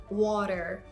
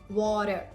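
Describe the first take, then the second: Both takes have the same delivery.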